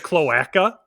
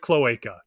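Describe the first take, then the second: First: The word has an unusual, playful pronunciation. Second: The word has its ordinary, standard pronunciation. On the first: The speaker calls it wrong. "it's more fun to say cloaca, even though I know that's not right" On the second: The speaker calls it right. "I know that's how to pronounce it"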